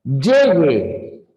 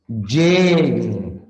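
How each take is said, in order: First: Llegue with the first syllable stressed. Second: Llegue with gue stressed. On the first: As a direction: lean on lle in Llegue. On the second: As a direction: lean on the final gue of Llegue. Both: Shown as a demonstration. Teacher contrasting two stress patterns for students.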